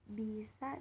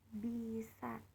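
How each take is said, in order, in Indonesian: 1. Tekanannya ada pada suku kata kedua. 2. Tekanannya ada pada suku kata pertama. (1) "dengan tekanan di sa artinya racun" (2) "dengan tekanan di bi artinya mampu"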